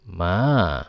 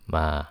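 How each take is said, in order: First: The pitch dips low, then rises again. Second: The pitch is low, short and soft. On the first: It means horse. "dari tinggi ke rendah, kemudian naik ke setengah tinggi lagi" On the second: It forms a question. "nada suara rendah dan lembut"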